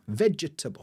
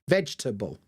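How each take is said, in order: First: The word is said with four syllables. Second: The word is said with three syllables. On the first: "Because I'd say vegetable, vegetable, vegetable, which is four sounds" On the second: "But a lot of people say vegetable, three sounds"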